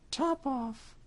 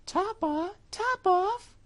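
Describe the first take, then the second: First: High cat voice, said coolly. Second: Very high, louder astonished mouse; mouse crying out. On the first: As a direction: toss the name off coolly. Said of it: "the cat said quite coolly". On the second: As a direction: squeak the name back in disbelief. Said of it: "cried the mouse". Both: Acted.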